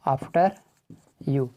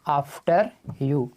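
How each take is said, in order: First: "After" and "you" separated by a long pause; split apart. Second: "after you" drawn out slowly; slow demo. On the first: Teacher to students, word by word. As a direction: break the phrase into its two words. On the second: Teacher introducing the phrase, slow. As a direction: say it slow so they catch it. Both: Shown as a demonstration.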